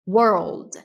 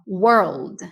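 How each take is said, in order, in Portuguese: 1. Ela é dita como uma unidade suave só. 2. Ela é dita como uma unidade suave só.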